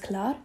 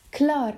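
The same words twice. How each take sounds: First: Said in the usual way. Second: Higher, mildly exasperated groan; a put-upon little groan; annoyed groan. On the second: A narrator's reading. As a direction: groan it with a touch of irritation. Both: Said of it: "stöhnt Nick genervt".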